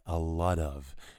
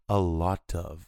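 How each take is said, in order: First: It is said with an American accent. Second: It is said with a British accent.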